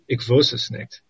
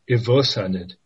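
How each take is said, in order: First: It is said in standard German. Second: It is said in Austrian dialect.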